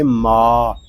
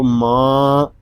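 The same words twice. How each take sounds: First: "माँ" said as an open maa, nothing in the nose; non-nasal vowel. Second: "माँ" with the long vowel sent into the nose; wrong nasal vowel. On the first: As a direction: say "माँ" like the start of maal, held long. ("माँ" को बिना नाक के, मा जैसा) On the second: ("माँ" में आवाज़ नाक में ले जाकर) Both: Shown as a demonstration. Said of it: "नाक में आवाज़ नहीं जानी चाहिए".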